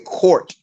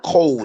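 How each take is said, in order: First: The word has an R and ends in T. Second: The word ends in a D sound, no R. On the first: The speaker calls it right. "you have to say court" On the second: The speaker calls it wrong. "y'all sound like y'all are saying code. It's not code"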